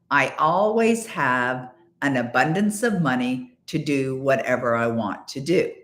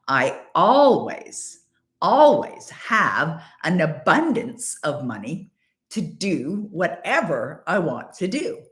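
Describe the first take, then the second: First: It is said plainly, without strong emotion. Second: It is said with intense, heartfelt emotion. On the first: The words are only recited. The speaker calls it wrong. "Say the words with me" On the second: The speaker truly believes and feels it. The speaker calls it right. "really feel it, like really mean it"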